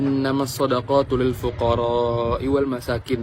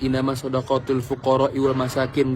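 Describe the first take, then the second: First: The vowel in fuqara is held long. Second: The vowel in fuqara is kept short. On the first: The speaker calls it right. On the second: The speaker calls it wrong.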